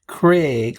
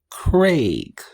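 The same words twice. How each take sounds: First: The vowel sounds like 'eh', as in 'egg'. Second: The vowel sounds like 'ay', as in 'day'. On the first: The speaker calls it wrong. "like C R E G, like a good number of Americans do" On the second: The speaker calls it right. "It's like C R A Y G"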